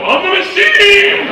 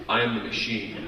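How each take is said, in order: First: High, roaring boast with a long last word; triumphant shout. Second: Low, soft, meek little statement; panicked admission. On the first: Frat boy proclaiming himself to a Russian gangster, triumphant shout. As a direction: bellow it like a battle cry. Repeats his line to the laughing gangster. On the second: Frat boy freezing before a Russian gangster, panicked and quiet. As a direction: quietly offer it, as if stunned. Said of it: "I panicked". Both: Retold or imitated.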